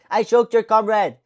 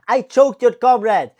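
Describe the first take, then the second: First: Loud, slow mock French accent; higher-pitched, drawn-out imitation French accent. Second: Loud, slow mock Russian accent; higher-pitched, drawn-out imitation Russian accent. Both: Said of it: "from the fucking Russian accent to the French accent".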